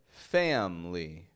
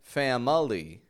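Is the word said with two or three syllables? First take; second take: two; three. First: The middle vowel is dropped, giving two syllables. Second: The middle vowel is sounded, giving three syllables. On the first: The speaker calls it right. "but rather family" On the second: The speaker calls it wrong. "I'm not saying family"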